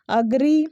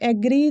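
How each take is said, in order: First: The word starts with a short 'uh' vowel. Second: The word starts with an 'eh' vowel. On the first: The speaker calls it right. "The third one is अग्री" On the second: The speaker calls it wrong. "जो कि ये गलत है"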